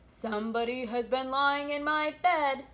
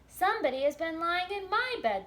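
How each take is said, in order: First: The voice is deep and gruff. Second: The voice is medium-pitched and moderate. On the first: A large, big creature is speaking. "in his great gruff voice" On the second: A middle-sized creature is speaking. "in her middle-sized voice"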